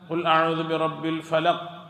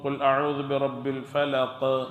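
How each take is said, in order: First: The final q is said plainly without any bounce. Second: The final q is released with an echoing bounce. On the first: The speaker calls it wrong. "എന്ന് ഓതാൻ പാടില്ല. അപ്പോൾ കൽക്കലത്ത് വന്നില്ല" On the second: The speaker calls it right. "ഫലഖ് എന്നാണ് ഓതേണ്ടത്. കാരണം അത് ഈ കൽക്കലത്തിൻ്റെ അക്ഷരമാണ്"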